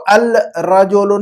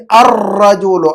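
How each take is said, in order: First: الرجل as al-rajulu, with a clear held L; wrong reading, laam sounded. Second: الرجل as ar-rajulu, long trilled R; assimilated article. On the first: Teacher shows what not to read, الرجل with audible L. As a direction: separate L from R in الرجل. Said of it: "اب ہم اس کو الرجل نہیں پڑھ سکتے". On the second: Teacher corrects pupil's reading, الرجل with long rolled R. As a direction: drop the L and roll the doubled R in الرجل. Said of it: "تو اب اس کو پڑھیں گے". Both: Shown as a demonstration.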